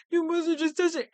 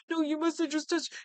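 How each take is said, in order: First: Higher, louder and faster repeat; imitating the suspect's panic rising; panicking harder. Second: Higher, strained denial; imitating a panicking suspect; panicking killer. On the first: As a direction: blurt the denial again in a rush. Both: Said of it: "This guy is panicking".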